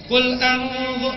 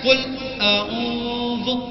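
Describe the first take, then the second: First: It is read smoothly in one go. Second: It is read haltingly, with stumbling. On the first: The reader is fluent. "kalau yang lancar cuma sekali baca" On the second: The reader is not fluent. "Yang nggak lancar"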